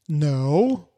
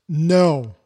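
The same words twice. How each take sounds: First: The word is said mildly. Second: The word is said forcefully.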